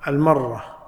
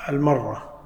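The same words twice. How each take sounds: No difference in how they are said.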